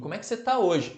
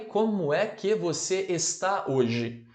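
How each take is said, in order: First: The words are linked together smoothly. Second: Each word is said separately and fully.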